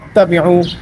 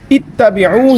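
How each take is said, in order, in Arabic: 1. تبدأ الكلمة بالصوت a. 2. تبدأ الكلمة بالصوت i. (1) "बाज़ हज़रात इस पर ज़बर पढ़ देते हैं" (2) "इसका जो हमज़ा है वो मकसूर है, उस पर ज़ेर है"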